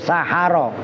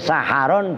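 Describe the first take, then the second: First: The word ends on a vowel, without n. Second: The word ends with an added n sound. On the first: "dan tidak pakai tanwin" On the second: "dengan dibaca tanwin"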